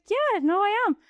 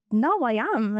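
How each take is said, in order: First: "I am" lifted higher and pressed harder, insisting. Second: Said in the usual way. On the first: Retold or imitated. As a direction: repeat it, insisting it's true.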